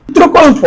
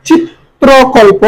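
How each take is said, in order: First: Said in the usual way. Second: চিত্রকল্প slow, "chit-tro-kol-po"; syllable-by-syllable pronunciation. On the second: Shown as a demonstration. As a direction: draw out each part of চিত্রকল্প. (চিত্রকল্প ভেঙে ধীরে উচ্চারণ) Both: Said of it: "যেভাবে উচ্চারণ".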